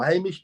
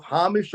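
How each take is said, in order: First: Hamish said with a long A: HAY-mish; alternative pronunciation. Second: Hamish said with an open "ah": HAH-mish; first pronunciation. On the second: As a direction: say Hamish with a broad first vowel. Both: Shown as a demonstration. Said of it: "Hamish or Hamish people".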